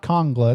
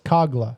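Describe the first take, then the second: First: The name has an n sound before the g. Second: The name has no n sound before the g. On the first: The speaker calls it wrong. "It's not Kongla" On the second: The speaker calls it right. "It's Kogla"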